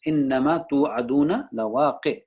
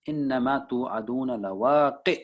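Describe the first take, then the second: First: تُوعَدُونَ lifted and the whole line recited louder; emphatic recitation. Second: Said in the usual way. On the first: Shown as a demonstration. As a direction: press hard on تُوعَدُونَ to drive the promise home. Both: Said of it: "This is the emphasis".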